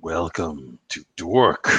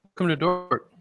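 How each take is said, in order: First: Drawn-out slow repeat; slow echo. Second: A touch of announcer voice, higher; announcer intro. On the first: Cohost echoing the show name, drawn out slowly. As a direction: stretch out Dork slowly. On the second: Host opening the podcast for listeners, lightly announcer-voiced. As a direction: sells the show name like a host. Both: Shown as a demonstration.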